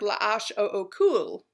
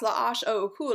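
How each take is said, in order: First: The letters are said at a normal pace. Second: The letters are said very fast.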